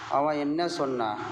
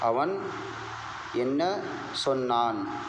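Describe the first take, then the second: First: The verb is pronounced in a shortened form. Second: The verb is pronounced in its full form. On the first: "आम तौर से" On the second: "ये भी बोल सकते हैं"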